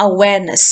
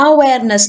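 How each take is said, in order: First: "awareness" said a-WARE-ness; stress on second syllable. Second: "Awareness" mis-stressed as A-wareness; "Awareness" with a strong first syllable, the rest falling away; wrong first-syllable stress. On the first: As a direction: keep the opening A light and lean on "ware" in "awareness". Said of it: "ഇവിടെയാണ് stress വീഴുന്നത്". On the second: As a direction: put the weight on the opening A of "Awareness". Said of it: "എന്നല്ല പറയുന്നത്". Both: Shown as a demonstration.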